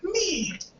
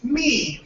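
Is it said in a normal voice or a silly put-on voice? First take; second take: put-on; normal. First: It is said in a silly Snuggle Bear voice. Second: It is said in his normal voice.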